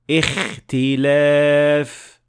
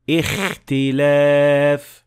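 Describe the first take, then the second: First: The kh is exaggerated and snore-like, near the mouth. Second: The same.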